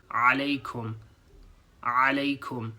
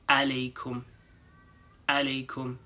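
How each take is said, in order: First: "Alaikum" with a throaty ain. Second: "alaikum" with an English schwa; "alaikum" without the throat sound; plain English a. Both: Shown as a demonstration. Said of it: "Sounds different from".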